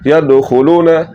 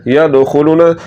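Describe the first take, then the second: No difference in how they are said.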